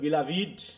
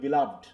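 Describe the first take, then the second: First: The ending '-ed' is a separate syllable. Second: The word ends in a single syllable 'loved'. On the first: It means a lover or sweetheart. "যখন হবে প্রেমিকা অর্থে তখন হবে বিলাভিড" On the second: It means dear or much loved. "যখন বলবা প্রিয় অর্থে কাউকে তখন হবে বিলাভড"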